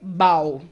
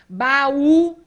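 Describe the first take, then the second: First: The final vowels glide together in one syllable. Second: The final vowels are split into two syllables. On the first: The speaker calls it wrong. "senão eu leio bau" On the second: The speaker calls it right. "se trata de um hiato"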